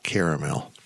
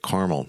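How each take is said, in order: First: The word is said the other, non-American way. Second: The word is said the speaker's American way. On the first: This is how the speaker does not say it. The speaker calls it wrong. "not caramel" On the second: This is how the speaker says it. The speaker calls it right. "I even say it caramel"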